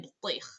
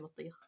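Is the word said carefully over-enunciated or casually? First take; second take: over-enunciated; casually. First: Each sound is exaggerated and carefully separated. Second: The sounds run together in a relaxed way. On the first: This is how it is shown to a learner. "I wouldn't say botlich" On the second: This is how it is said in everyday speech. "I would just say botlich"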